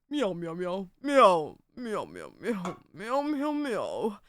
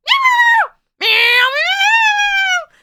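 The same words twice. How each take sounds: First: Slow-witted cat, soft low meows swooping up at the end; imagined cat voice. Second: High-pitched, shrieking meows, very loud; hyper cat voice. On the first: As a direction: meow low and lazily, like a dopey cat. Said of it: "Lara's cat in my brain talks like this". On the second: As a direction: screech meows like a cat bouncing off the walls. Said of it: "And then the other one is like". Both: Acted.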